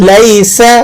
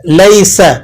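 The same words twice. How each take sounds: Both takes have the same delivery.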